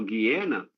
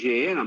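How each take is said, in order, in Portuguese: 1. A palavra começa com um som g forte. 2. A palavra começa com um som zh suave. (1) "a pronúncia correta é o Guiena" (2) "eu chamo de Geena"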